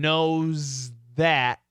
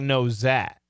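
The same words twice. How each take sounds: First: The th sound of 'that' is clearly heard. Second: The z sound replaces the th sound. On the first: "from knows that" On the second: "it sounds like knows that"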